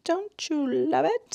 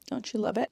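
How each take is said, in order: First: "Don't you love it?" sung up high, slow, rising at the end; high drawn-out coo. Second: Said in the usual way. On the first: Shown as a demonstration. Gushing to viewers about the show, high slow coo.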